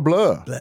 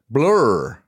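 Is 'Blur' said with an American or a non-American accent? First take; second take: non-American; American. First: The word is said without an American accent. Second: The word is said with an American accent. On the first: The speaker calls it right. "That was good" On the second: The speaker calls it wrong. "That's very American"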